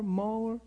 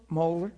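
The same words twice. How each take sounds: First: Moeller? tried high and hesitant, name half-known; a caller unsure how to say Moeller?; unsure name guess. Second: Moeller? said with a questioning rise, settling the name; name checked. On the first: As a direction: test Moeller? tentatively at a higher pitch. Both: Retold or imitated. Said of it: "Is this Dan M-, M-, Mauer?".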